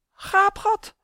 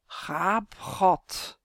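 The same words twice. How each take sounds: First: High, loud, startled blurt; frightened stammer. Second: Ominous intoning from the grave; sepulchral voice. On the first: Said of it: "stottert Chris". (geschrokken, hoog uitgeroepen) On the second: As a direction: intone the word hollowly, like a tomb. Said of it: "met een grafstem". (met een grafstem) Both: A narrator's reading.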